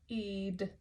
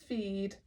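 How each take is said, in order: The two takes are said the same way.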